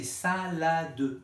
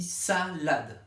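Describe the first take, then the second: First: "salade" slowly as sa, la, de; three-syllable pronunciation. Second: "salade" as sa, lade, silent final e; two oral syllables. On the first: Acted. Parents objecting it isn't two, syllable by syllable. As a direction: sound the final e of "salade" as its own syllable. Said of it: "c'est pas deux syllabes". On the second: Shown as a demonstration. Teacher correcting parents, syllable by syllable. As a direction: split "salade" slowly into just two syllables. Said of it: "On dit deux syllabes".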